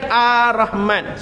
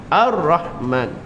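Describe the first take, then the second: First: The r sound is dropped, not heard. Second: The r sound is clearly trilled. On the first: The speaker calls it wrong. "Dia bukan Ar-Rahman. Salah" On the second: The speaker calls it right. "Dia bunyi ra tu baru dia getar"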